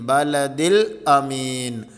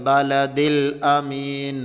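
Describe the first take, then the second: Both takes have the same delivery.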